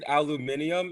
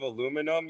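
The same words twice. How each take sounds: First: It is said with a British pronunciation. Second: It is said with an American pronunciation. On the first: The speaker has picked up a habit from someone else. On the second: This is the speaker's usual way of saying it.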